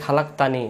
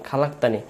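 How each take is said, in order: The two takes are said the same way.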